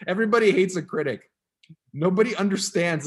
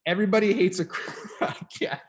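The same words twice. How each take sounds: First: Loud, mock-serious reading aloud; dramatic reading. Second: Cracking up mid-word; laughing while trying to read. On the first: Shown as a demonstration. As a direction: read it big and dramatic. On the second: Real, not acted. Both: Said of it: "I can't even read it without laughing".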